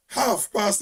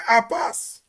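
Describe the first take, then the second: First: Said in the usual way. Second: "half past" run together as "ap-pass"; Trinidadian pronunciation. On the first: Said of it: "They don't say half past". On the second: Shown as a demonstration. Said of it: "They say half past".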